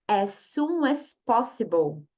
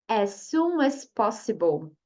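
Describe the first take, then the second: Both takes have the same delivery.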